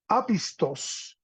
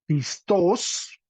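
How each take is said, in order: First: Apistos said slowly, stress pulled back towards the start, falling away; retracted stress. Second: Pistos with the stress on the last syllable, pis-TOS; stress on final syllable. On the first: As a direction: draw out "apistos", accent moved back off -tos. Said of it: "acento en la anteúltima". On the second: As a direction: say "pistos" leaning on a rising -TOS. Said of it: "tenemos un acento de un adjetivo". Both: Shown as a demonstration.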